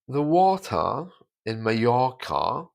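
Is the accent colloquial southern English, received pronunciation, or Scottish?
Received pronunciation. Standard southern English accent with silent R sounds. "the letter R is taken away. You don't hear it at all in received pronunciation"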